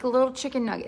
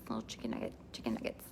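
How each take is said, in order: First: Said in the usual way. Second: Much lower, softer breathy whisper; whispered nugget. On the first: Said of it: "it's like a little person chicken nugget". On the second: Shown as a demonstration. Host murmurs the nugget phrase under her breath in a whisper. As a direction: breathe it out, hushed. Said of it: "Chicken nugget, all the things".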